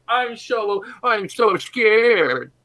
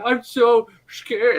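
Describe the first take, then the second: First: High, loud, very slow slurred mock fear; puddle voice. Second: High, loud, drawn-out mock fright; badly faked fear. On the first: Melted creature calling from the puddle, slurred fake terror. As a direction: ooze the fake fright out, drawn long. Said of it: "hear the voice coming from the puddle". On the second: Armor still pretending as it leaks, hammed-up fright. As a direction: overact being scared, very slowly. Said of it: "starts faking and pretending".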